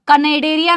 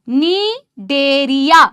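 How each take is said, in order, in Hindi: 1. यह शब्द एक बोली जाने वाली k ध्वनि से शुरू होता है। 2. यह शब्द एक n ध्वनि से शुरू होता है। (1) "कनेडेरिया नहीं है गाइज" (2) "सी साइलेंट है इधर"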